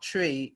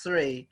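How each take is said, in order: First: The word begins with a plain t sound. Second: The word begins with a th sound. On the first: This is how it is said in Jamaica. The speaker calls it wrong. "they don't say three in Jamaica; they say tree" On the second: This is how it is said in English. The speaker calls it right. "it's three"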